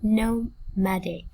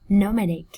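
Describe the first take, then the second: First: Slow No, pause, madic; slow broken-down reading. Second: Said in the usual way. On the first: Shown as a demonstration. Teacher modelling nomadic for students, slowly in pieces. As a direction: sound out Nomadic slowly with a break inside. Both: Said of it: "Cô giáo đọc chậm nhá".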